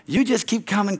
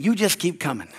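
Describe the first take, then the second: First: "You just keep coming" lifted higher, weight on You; urging emphasis. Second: Said in the usual way. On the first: Shown as a demonstration.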